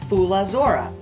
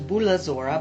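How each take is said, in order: First: The word begins with an F sound. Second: The word begins with a B sound. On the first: This is the standard Greek form. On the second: This is the local Paeonian pronunciation.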